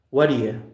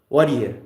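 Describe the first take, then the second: The two takes are said the same way.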